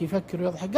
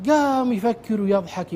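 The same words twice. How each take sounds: First: Soft echo. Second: Said in the usual way. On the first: Shown as a demonstration. Retelling how the inmate sat thinking and laughing, a quiet echo. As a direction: repeat the phrase lower and quieter, trailing off.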